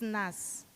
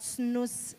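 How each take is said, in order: First: The name sounds like the syllable nas. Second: The name sounds like the word snooze. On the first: The speaker calls it right. "it's nas" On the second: The speaker calls it wrong. "it's not snooze"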